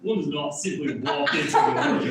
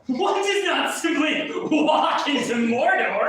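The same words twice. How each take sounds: First: It is said like an eccentric billionaire. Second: It is said in a fairly plain voice.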